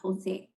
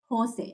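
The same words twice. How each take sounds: First: The stress is on the second syllable. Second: The stress is on the first syllable. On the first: This is how she would say the name. The speaker calls it wrong. "not Jose" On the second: This is how he says his own name. The speaker calls it right. "he goes by Jose, Has the accents on the O"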